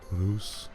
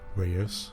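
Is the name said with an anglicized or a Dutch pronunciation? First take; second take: Dutch; anglicized. First: The name is said with a Dutch pronunciation. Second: The name is said with an anglicized pronunciation. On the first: The speaker calls it right. "the actual pronunciation is" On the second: The speaker calls it wrong. "We're going to call it"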